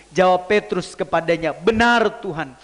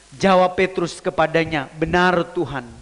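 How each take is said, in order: Both takes have the same delivery.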